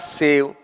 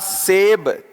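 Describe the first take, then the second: First: The word ends with a v sound. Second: The word ends with a b sound. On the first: The speaker calls it wrong. "बोलते क्या है आपका?" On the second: The speaker calls it right. "शब्द होता है आपका"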